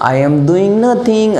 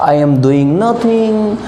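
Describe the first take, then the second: No difference in how they are said.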